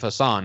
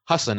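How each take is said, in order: First: The name is said with an Americanized pronunciation. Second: The name is said with its original pronunciation. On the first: The name is adapted for American listeners. The speaker calls it wrong. "instead of Hasan" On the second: This is how the owner of the name says it. The speaker calls it right. "now he goes by Hasan"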